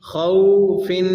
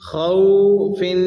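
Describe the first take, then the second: The two takes are said the same way.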